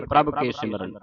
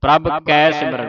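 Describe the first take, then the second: First: ਕੇ with a closed "ay" vowel; lower, wrong reading with ਕੇ as "ke"; mistaken pronunciation. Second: ਕੈ with an open "ai" vowel; correct pronunciation. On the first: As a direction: say ਕੇ as "kay", the common misreading. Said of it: "ਬਹੁਤੀਆਂ ਸੰਗਤਾਂ ਕੇ ਪੜ੍ਹਦੀਆਂ". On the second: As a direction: stress the wide vowel in ਕੈ. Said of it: "ਦਲਾਵਾਂ ਦਾ ਧਿਆਨ ਰੱਖਣਾ". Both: Shown as a demonstration.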